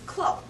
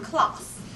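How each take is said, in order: First: The word ends without an s sound. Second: The word ends with an audible s sound. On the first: The speaker calls it right. "the right pronunciation is cloud" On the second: The speaker calls it wrong. "not class. The S is silent"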